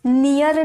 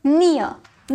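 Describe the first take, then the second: First: "नियर" with a full, clear r at the end, like "neer"; wrong full-r pronunciation. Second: "नियर" said as "nia", with the final r barely sounded; half-r pronunciation. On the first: Teacher warning students not to say "नियर" with a full r. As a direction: sound the r in "नियर" fully, the way not to say it. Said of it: "बस नियर नहीं बोलेंगे". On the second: Teacher showing students the half r, "नियर" as nee-a. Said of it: "उसे half में pronounce करते". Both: Shown as a demonstration.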